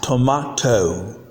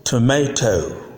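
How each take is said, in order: First: "tomato" as "to-mah-toe"; British pronunciation. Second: "tomato" as "tuh-may-toe"; American pronunciation. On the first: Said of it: "in British English". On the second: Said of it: "But in American English". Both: Shown as a demonstration.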